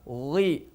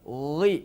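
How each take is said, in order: The two takes are said the same way.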